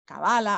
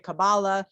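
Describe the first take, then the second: First: It is pronounced the Spanish way. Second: It is pronounced the US East Coast way. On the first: "In Spanish, they say Kabbalah" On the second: "in the East Coast, we say Kabbalah"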